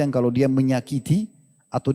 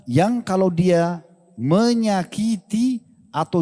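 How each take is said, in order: First: Said in the usual way. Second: "menyakiti" stretched out slowly, pitched higher; penekanan kata. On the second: Shown as a demonstration. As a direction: draw out "menyakiti" syllable by syllable. (kata "menyakiti" diulur pelan dengan nada naik) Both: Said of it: "Garis bawahi kata-kata disakiti".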